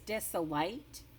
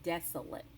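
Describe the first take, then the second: First: It is sounded out as the letters suggest. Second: It is said with its usual pronunciation. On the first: The speaker calls it wrong. "Looks like it says desolate" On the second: The speaker calls it right. "But we pronounce it a different way. We pronounce it desolate"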